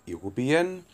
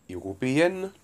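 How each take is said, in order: The two takes are said the same way.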